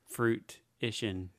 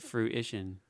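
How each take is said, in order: First: It begins with a full 'fruit' sound. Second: It begins without a full 'fruit' sound. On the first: The word is built from fruit. "that's the idea. It's fruit-ition" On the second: This is how people normally say the word. "But we say it fruition"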